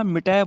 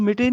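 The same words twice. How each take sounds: First: ਮਿਟੈ ending in open "ai". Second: ਮਿਟੇ ending in "ay"; wrong close ending. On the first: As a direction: say ਮਿਟੈ as "mi-tai". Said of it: "ਮਿਟੈ ਬੋਲਣਾ ਹੈ". (ਮਿਟੈ, ਅੰਤ ਵਿੱਚ ਦੁਲਾਵਾਂ) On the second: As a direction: say ਮਿਟੇ as "mi-tay". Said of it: "ਮਿਟੇ ਨਹੀਂ ਬੋਲਣਾ". (ਮਿਟੇ, ਅੰਤ ਵਿੱਚ ਲਾਂ) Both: Shown as a demonstration.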